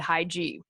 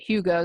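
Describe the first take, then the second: First: The word sounds like "high G". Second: The word does not sound like "high G". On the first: The speaker calls it wrong. "I would have said high G" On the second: The speaker calls it right. "Hygge is how you pronounce that"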